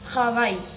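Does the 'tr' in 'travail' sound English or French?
French. The r is soft and made at the back. The speaker calls it right. "It's like travail"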